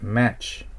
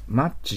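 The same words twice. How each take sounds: First: The vowel is the open 'a' sound of match. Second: The vowel is the short 'uh' sound of much. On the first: The speaker calls it right. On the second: The speaker calls it wrong.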